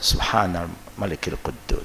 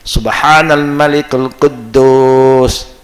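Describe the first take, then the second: First: It is said at a normal, quieter volume. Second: It is said with a raised, louder voice. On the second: "The third time you can raise your voice louder"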